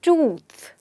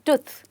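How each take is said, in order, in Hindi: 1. यह लंबी oo ध्वनि है। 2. यह छोटी oo ध्वनि है। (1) "ऐसे ही हम बोलते हैं tooth" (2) "ना कि tooth"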